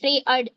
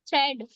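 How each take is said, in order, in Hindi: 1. बीच का स्वर दो ध्वनियों में बँटा है। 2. बीच का स्वर एक छोटी ध्वनि है। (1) "अगर ये हमारा साइलेंट नहीं होता तो आप थ्री अर्ड पढ़ते" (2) "ए हमारा साइलेंट हो जाता है"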